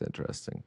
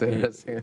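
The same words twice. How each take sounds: First: It is said in a flat, unimpressed way. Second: It is said with real, positive interest. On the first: The thing is actually bad. "like when you're at an art gallery and you're like" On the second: The thing is truly interesting. "or it's, it's interesting"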